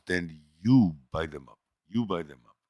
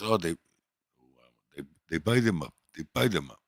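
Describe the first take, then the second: First: "you" pushed hardest, handing the blame back; comeback retold. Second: "buy" pushed hardest, the rest said flatly; bodega guy retold. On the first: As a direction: stress on you in "you buy them up". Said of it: "he goes". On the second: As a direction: stress on buy in "they buy them up". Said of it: "He goes".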